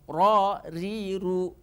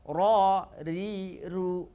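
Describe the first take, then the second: No difference in how they are said.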